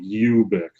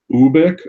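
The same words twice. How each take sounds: First: The first vowel is a 'you' sound. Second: The first vowel is not a 'you' sound.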